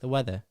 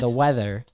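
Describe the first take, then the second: First: It is said in a British accent. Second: It is said in an American accent. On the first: "they just say" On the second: "if we say"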